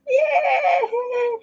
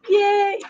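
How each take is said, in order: First: It is said in a Kermit the Frog voice. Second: It is said in her own normal voice.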